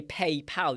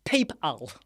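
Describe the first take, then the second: First: "PayPal" said the normal way, pay-pal; plain everyday "PayPal"; usual PayPal. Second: "PayPal" said as the wrong version; mock-wrong "PayPal"; deliberately off "PayPal". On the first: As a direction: standard "PayPal". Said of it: "So you say PayPal". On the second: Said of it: "You don't say". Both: Shown as a demonstration.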